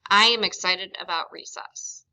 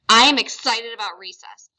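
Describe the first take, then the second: First: It sounds flat and unexcited. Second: It sounds happy and excited.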